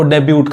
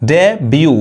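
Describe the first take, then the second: First: The word ends with a clear t sound. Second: The word ends on the vowel, without t. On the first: The speaker calls it wrong. "इसको बहुत लोग गलत पढ़ते हैं" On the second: The speaker calls it right. "टी silent होता है"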